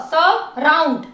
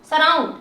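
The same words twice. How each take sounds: First: surround slowly, as स and round; slow, segmented surround; syllable by syllable. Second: Said in the usual way. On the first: Shown as a demonstration. Teacher splits word into syllables.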